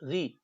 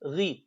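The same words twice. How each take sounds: The two takes are said the same way.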